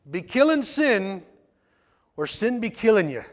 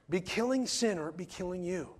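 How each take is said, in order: First: It is said in an Irish brogue. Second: It is said in his own accent.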